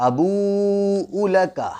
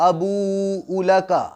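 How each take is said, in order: The two takes are said the same way.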